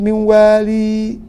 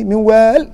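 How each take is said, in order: First: The last word ends with a long ee sound. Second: The last word ends on a consonant, no ee. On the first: The speaker calls it wrong. "بالوقف بالياء اللي هو وقف ابن كثير" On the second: The speaker calls it right. "لو سكونه مركا افصح"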